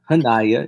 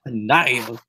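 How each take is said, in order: First: Hanaya as HAN-aya, rising at the end; wrong first-syllable stress. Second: Slow Hanaya, stretched on the middle NAI; correct name stress. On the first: Showing the co-host what not to say, Hanaya stressed on HAN. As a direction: put the weight on HAN in Hanaya. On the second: Teaching the co-host the name, Hanaya slowly stressed on NAI. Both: Shown as a demonstration. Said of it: "get the emphasis on the right words".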